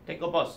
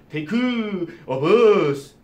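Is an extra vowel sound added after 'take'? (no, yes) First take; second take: no; yes. First: Take ends cleanly with no added vowel. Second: Take ends with an extra 'eu' vowel sound. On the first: The speaker calls it right. "이렇게 얘기하지" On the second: The speaker calls it wrong. "누가 그렇게 얘기를 해요?"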